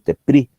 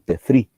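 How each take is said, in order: First: The middle consonant is a p sound. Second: The middle consonant is an f sound. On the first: The speaker calls it wrong. "No digo Tepri" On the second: The speaker calls it right. "sino que digo Tefri, porque se pronuncia F"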